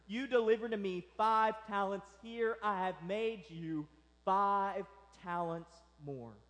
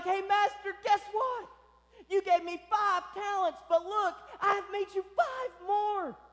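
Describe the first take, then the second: First: Said in the usual way. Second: High, loud, eager boasting; excited servant. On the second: Acted. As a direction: burst out like you can't wait to show the master. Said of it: "He's excited. He can't wait to show his master".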